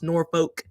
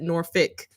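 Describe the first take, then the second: First: It is said the way the spelling suggests. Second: It is said in the local way. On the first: This is not how the name is usually said. The speaker calls it wrong. "It's not typically pronounced Norfolk" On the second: This is how people from the city say it. The speaker calls it right. "I personally pronounce it Norfolk"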